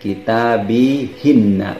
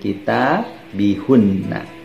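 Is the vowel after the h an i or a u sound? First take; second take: i; u. First: The vowel after the h is i. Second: The vowel after the h is u. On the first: The speaker calls it right. "maka akan dibaca kitabihinna" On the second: The speaker calls it wrong. "bukan kitabihunna"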